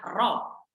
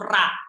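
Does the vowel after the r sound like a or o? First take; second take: o; a. First: The vowel sounds like a rounded o. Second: The vowel sounds like an open a. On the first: The speaker calls it right. "Adanya ro, bukan ra" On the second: The speaker calls it wrong.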